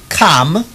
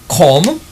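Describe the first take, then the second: First: The vowel sounds close to an 'a' sound. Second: The vowel sounds close to an 'or' sound. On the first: "instead of saying come" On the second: "instead of saying come"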